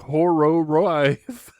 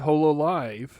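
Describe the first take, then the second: First: The name is said with R sounds instead. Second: The name is said with clear L sounds. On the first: The speaker calls it wrong. "They're not saying Horrorive" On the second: The speaker calls it right. "They can pronounce the L"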